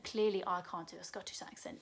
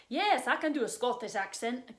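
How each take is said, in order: First: Said in the usual way. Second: Lightly faked Scottish accent, eager yes; bad Scottish accent. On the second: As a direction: attempt a Scottish accent and miss.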